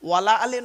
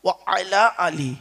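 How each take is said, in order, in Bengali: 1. প্রথম দুটি শব্দ মিলে 'wala' হয়ে যায়। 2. প্রথম দুটি শব্দ আলাদা করে 'wa ala' বলা হয়। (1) "ওয়ালা আলে নয় গো বাবা, ওয়ালা আলে বলবেন না" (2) "ও আলা আলী, কি বললাম বাপেরা?"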